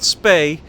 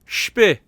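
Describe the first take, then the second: First: The vowel sounds like 'ay'. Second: The vowel is close to 'ee'. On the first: The speaker calls it wrong. "it's not spay" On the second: The speaker calls it right. "That's my best pronunciation attempt"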